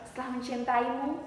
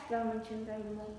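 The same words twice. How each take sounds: First: The vowels are articulated clearly. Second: The vowels are mumbled and unclear. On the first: The speaker calls it right. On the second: The speaker calls it wrong.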